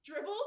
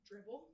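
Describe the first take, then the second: First: Higher, louder, rising word; raised, eager final attempt; mounting excitement. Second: Soft, cautious single word; hushed, unsure first attempt; tentative. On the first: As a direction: call it out with surprised confidence. Third dribble, confidence building. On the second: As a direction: try it out quietly and carefully. Narrating first tentative basketball dribble.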